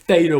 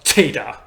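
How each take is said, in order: First: It begins with a th sound. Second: It begins with an aspirated t sound. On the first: This is how the letter is named today. "the more th-like sound that we pronounce it as today" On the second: This is how the letter was originally pronounced. "that T at the beginning would have been uh, just, just an aspirated T"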